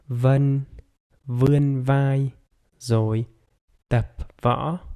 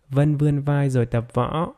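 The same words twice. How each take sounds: First: The sentence is spoken somewhat slowly. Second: The sentence is spoken at normal speed. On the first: "a little bit faster" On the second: "with normal speed"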